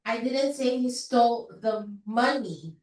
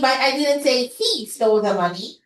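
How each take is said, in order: First: The word money carries the stress. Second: The word he carries the stress. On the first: He took something other than the money. "Probably he just stole the gold, not the money" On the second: Someone else took the money. "nilagay ko yung stress sa fourth word"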